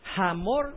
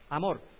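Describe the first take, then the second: First: The name begins with a breathy consonant sound. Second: The name begins directly with a vowel. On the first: The speaker calls it wrong. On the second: The speaker calls it right.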